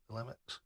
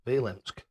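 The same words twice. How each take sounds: First: "Vilimx" ending in a soft ks sound; attempt with the X. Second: "Vilimsk" ending in a plain sk sound; attempt without the X. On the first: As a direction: try "Vilimx" with the x at the end. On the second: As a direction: say "Vilimsk" with no x at the end. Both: Shown as a demonstration. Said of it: "You've forgotten the X".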